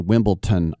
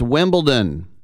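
First: The consonant before the last syllable sounds like T. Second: The consonant before the last syllable sounds like D. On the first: The speaker calls it wrong. "I don't know why most of my fellow Americans say Wimbledon" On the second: The speaker calls it right. "It's Wimbledon"

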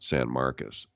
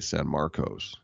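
First: The second word ends with a reduced 'us' sound. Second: The second word ends with a full 'os' sound. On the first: This is how locals say it. "in Texas, trust me, they pronounce it like Marcus Allen" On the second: This is how it reads from the spelling. "if you asked me to read it, I would say San Marcos"

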